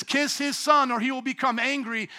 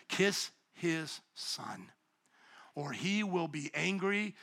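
First: Pitched up, with a push on son; higher, brisker reading. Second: Soft and slow, each word drawn out; slow hushed reading. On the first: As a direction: read it again higher, like a challenge. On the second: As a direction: read it quietly, like a solemn warning. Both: Shown as a demonstration. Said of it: "Look at it again".

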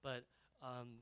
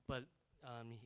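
Both takes have the same delivery.

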